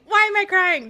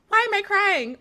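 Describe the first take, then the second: First: Imitating Whitney, louder. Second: Imitating Whitney. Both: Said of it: "Whitney kept saying".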